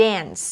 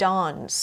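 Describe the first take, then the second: First: 'dance' with the front vowel of 'cat'; American short A. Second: 'dance' with a long open 'ah'; British long A. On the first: Teacher showing what to avoid, American A in 'dance'. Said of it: "Instead of saying". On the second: Teacher showing how to sound more British, 'ah' in 'dance'. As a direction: say 'dance' as 'dahns'. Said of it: "you say". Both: Shown as a demonstration.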